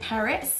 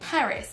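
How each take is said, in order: First: "Paris" stressed on RIS, pitch rising at the end; second-syllable stress. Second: English "Paris", stressed on PA; first-syllable stress. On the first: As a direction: push the last syllable of "Paris" up. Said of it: "avec l'accentuation sur le deuxième mot". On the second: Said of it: "est accentué sur la première syllabe". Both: Shown as a demonstration.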